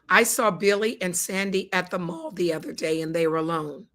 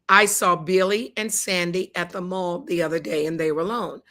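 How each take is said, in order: The two takes are said the same way.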